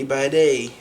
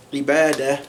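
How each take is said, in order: First: Ibadeh said with the ending raised to an -eh sound; Syrian pronunciation. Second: Ibadah said with an open final A sound; standard pronunciation. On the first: Teacher showing learners the Syrian ending, demo. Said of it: "they would say ibadeh". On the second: Teacher giving learners the standard form first, demo. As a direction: say ibadah ending on a plain -ah. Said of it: "So instead of saying". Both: Shown as a demonstration.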